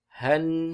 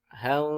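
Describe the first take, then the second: First: The final n is pronounced clearly and distinctly. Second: The final n is blurred and barely heard. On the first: The speaker calls it right. "harus jelas huruf nun sukunnya" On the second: The speaker calls it wrong. "itu adalah bacaan yang salah"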